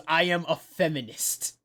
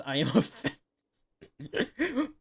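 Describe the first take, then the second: First: Said in the usual way. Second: Very slow, higher, laughing through it; laughing put-on voice. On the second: Shown as a demonstration. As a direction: stretch it out while cracking up.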